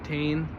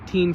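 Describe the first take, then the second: First: The vowel sounds like 'ay' in 'say'. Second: The vowel sounds like 'ee' in 'see'. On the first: "or Tane, however you want to pronounce it" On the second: "It just seems to roll off my tongue as Teen"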